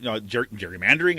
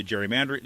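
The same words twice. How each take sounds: First: Gerrymandering restarted, then said carefully and a bit louder; stop, restart, and land gerrymandering cleanly; ger-, then a deliberate gerrymandering; corrected pronunciation. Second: Gerrymandering rushed and garbled mid-sentence; gerrymandering tumbles out fast and off; slipped pronunciation. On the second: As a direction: blur gerrymandering in a fast run. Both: Real, not acted. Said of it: "what happened to my accent on that".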